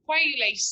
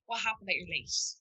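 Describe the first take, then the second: First: "Why are you late?" snapped higher and louder; sharp accusing question. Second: Softer, calm "What happened that you're late?"; calm curious question. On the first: To someone arriving late, a sharp accusing question. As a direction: confront them for being late. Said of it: "maybe instead of saying". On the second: To someone arriving late, a calm curious question. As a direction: ask with real curiosity. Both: Shown as a demonstration.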